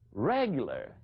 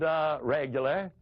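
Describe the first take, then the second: First: It is said with an incredulous inflection. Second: It is said plainly, with hesitation.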